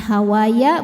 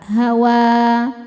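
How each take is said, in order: First: The word ends with an added 'ya' syllable. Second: The word ends on a plain 'wa' sound. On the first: The speaker calls it wrong. "Jadi bukan hawaya" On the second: The speaker calls it right.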